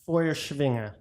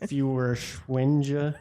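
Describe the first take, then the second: First: The first part sounds like German 'Feuer'. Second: The first part sounds like English 'fewer'. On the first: The speaker calls it right. "I brushed up on German pronunciation, and it's more like" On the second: The speaker calls it wrong. "at first when I read it, I thought it was fewer Schwinge"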